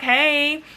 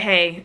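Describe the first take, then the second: First: Higher, light "hey"; friendly greeting. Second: Lower, curt-sounding "hey"; irritable greeting. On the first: Answering the friend's call, friendly and open. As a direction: greet a friend on the phone, pitched up. Cheerful greeting before her irritable reply. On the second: Irritable friend on the phone, low mild attitude. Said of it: "She was irritable". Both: Retold or imitated.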